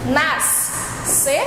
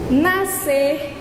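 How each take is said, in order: First: Both the S and the C are sounded. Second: Only one S sound is heard. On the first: The speaker calls it wrong. "Não falamos assim" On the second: The speaker calls it right. "falamos é, apenas o S"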